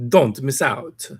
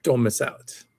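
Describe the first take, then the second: First: Slow, higher put-on sales voice; mock ad pitch. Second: Said in the usual way. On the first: Streamer repeating the article's slogan, slow mock sales pitch.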